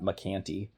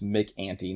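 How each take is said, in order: First: The second part starts with a k sound. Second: The second part starts with a vowel sound. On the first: The speaker calls it wrong. "not McCanty" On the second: The speaker calls it right. "you don't say it's it's Mick Anty"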